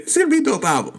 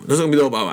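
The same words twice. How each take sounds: First: Screaming. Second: Said in the usual way. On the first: Shown as a demonstration. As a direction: scream it out with hype. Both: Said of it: "I know I was screaming".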